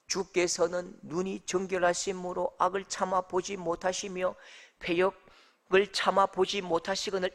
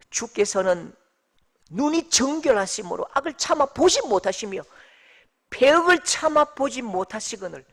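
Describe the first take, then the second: First: Monotone, softer, uninvolved recital; dull verse reading. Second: Firm, forceful verse reading; emphatic scripture reading. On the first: Preacher shows how reading verse thirteen gets boring, dull recital. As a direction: read it out evenly with no feeling. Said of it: "이렇게 하면 이게 재미가 없는 거예요". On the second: Preacher reads the verse to the congregation, emphatically. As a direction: read the verse out with weight. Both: Shown as a demonstration.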